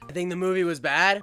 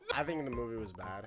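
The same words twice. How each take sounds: First: The sentence is said at a louder volume. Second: The sentence is said at a quieter volume.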